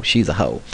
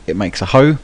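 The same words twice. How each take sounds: First: Put-on a quick, lightly done American accent; throwaway mock American accent. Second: Said in the usual way. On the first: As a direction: drop into a jokey American accent for the punchline. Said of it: "I had to do it in an American accent". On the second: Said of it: "I don't know why I had to do it in an American accent".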